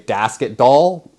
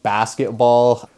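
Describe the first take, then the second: First: The B sounds are replaced with D sounds. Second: The word is said with normal B sounds.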